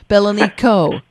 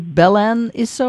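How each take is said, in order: First: The consonant before the last vowel is a k. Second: The consonant before the last vowel is an s. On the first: The speaker calls it right. "So it's a hard C" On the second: The speaker calls it wrong. "am I pronouncing it correctly?"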